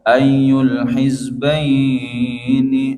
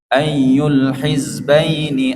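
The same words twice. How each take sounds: First: The vowel in hizbaini is drawn out long. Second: The vowel in hizbaini is kept short. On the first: The speaker calls it wrong. "ah itu terlalu panjang" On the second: The speaker calls it right. "ah itu baru dua harakat"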